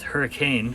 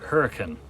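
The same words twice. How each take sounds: First: It is pronounced the way the spelling suggests. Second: It is pronounced the way locals say it. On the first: "looks like it is hurricane" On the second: "they pronounce it hurricane"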